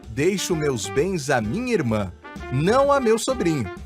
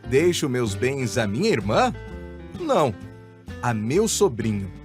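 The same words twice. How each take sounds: First: The voice does not rise on 'irmã'. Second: The voice rises on 'irmã' as a question.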